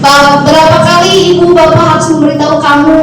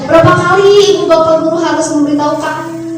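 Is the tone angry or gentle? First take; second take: angry; gentle. First: It is said in a harsh, angry tone. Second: It is said in a soft, gentle tone. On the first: The teacher is scolding the child. The speaker calls it wrong. "nah tidak begitu ya" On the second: The child is led to feel guilty. The speaker calls it right. "Itu kan lemah lembut ya"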